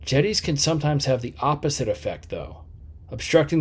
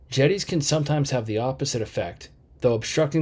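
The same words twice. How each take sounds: First: 'Though' ends the first part falling, then a pause follows. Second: The pause comes before 'though', which starts the next clause. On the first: The second sentence explains the first one. The speaker calls it right. "That falling tone makes it clearer" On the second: The two ideas contrast with each other. The speaker calls it wrong. "Let me say it with B as in boy"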